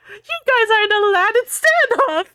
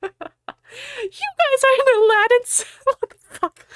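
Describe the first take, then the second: First: High, loud hammy plea; mock desperate shout. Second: High, breaking into real laughter; laughing break. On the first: Ebony shouting at the gunmen, hammy desperate. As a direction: cry it out like a panicked heroine. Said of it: "I shouted desperately". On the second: Real, not acted. Reader cracking up rereading the line.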